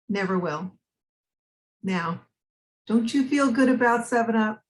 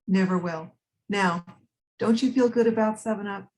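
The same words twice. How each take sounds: First: There is a longer break before 'now'. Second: There is only a short break before 'now'. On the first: "take a little pause after never had it, never will" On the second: "Can you take a little bit more of a break?"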